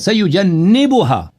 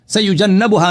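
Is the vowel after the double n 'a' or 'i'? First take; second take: i; a. First: The vowel after the double n is i. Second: The vowel after the double n is a. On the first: The speaker calls it right. "नून मकसूर है" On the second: The speaker calls it wrong. "सयुजन्नबुहा नहीं है"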